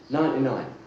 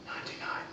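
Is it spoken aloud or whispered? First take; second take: aloud; whispered. First: It is spoken in a normal voice. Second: It is whispered.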